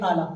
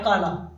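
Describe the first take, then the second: First: The q becomes a glottal stop, Egyptian style. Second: The word starts with a standard q sound.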